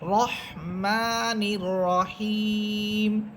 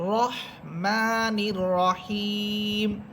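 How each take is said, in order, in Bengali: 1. র মোটা, পূর্ণ ও গোলাকার স্বরধ্বনির সঙ্গে। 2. র মোটা, পূর্ণ ও গোলাকার স্বরধ্বনির সঙ্গে।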